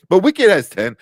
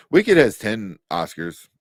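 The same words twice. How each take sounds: First: Loud, high burst on Wicked; loud amazed exclamation; excited disbelief. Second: Wicked stressed, words drawn out; slow stunned repeat; slow incredulous repeat. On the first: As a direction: blurt it out, amazed. Stunned by Oscar nomination count. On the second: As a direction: let it sink in slowly. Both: Real, not acted.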